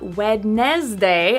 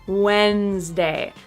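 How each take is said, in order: First: Every syllable is pronounced, including the second. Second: The second syllable is dropped after a strong first. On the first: The speaker calls it wrong. "Not Wednesday as it's spelled" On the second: The speaker calls it right. "disappears because the first syllable is so strong"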